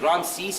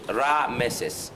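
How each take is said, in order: First: The name is said with two syllables. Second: The name is said with three syllables. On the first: This is the Greek form of the name. "Ramses is a Greek pronunciation" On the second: This is the original form of the name. "the actual pronunciation of Ramesses is Rameses"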